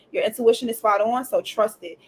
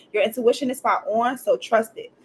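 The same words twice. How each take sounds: The two takes are said the same way.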